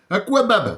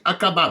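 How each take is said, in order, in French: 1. Un son 'w' vient après le k. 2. Le k est suivi directement du a. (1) "Et il prononce le U" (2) "moi, je lis Akabab"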